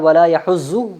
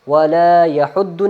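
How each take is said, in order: First: The doubled consonant sounds like a plain z. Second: The doubled consonant sounds like a plain d. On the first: "वला यहुज़्ज़ु नहीं पढ़ना" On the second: "वला यहुद्दु नहीं पढ़ना"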